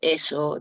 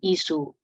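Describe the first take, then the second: First: The vowels are mid, 'e' and 'o'. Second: The vowels are high, 'i' and 'u'. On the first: This is the standard form. "en vez de decir eso" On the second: This is how Quechua speakers say it. "dicen isu"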